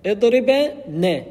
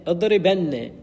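First: اضربن stretched slowly, high and loud, "idriba... nne"; parts sounded out. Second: Said in the usual way. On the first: Shown as a demonstration. Teacher shows the nun joining the verb, اضربن loud and segmented. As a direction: split اضربن before the emphatic nun, drawn out. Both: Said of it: "اضرب اقترن بنون التوكيد".

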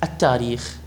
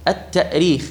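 First: "التاريخ" with a long aa, no glottal stop; hamza softened to alif. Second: "التأريخ" with a glottal stop after the ta; still hamza sounded. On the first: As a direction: say "التاريخ" as "taa-reekh". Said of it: "يقولون القياس لابد أن تقول". (نطق «التاريخ» بالألف دون همز) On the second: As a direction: say "التأريخ" as "ta'-reekh". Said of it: "والهمزة ساكنة". (نطق «التأريخ» مهموزًا) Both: Shown as a demonstration.

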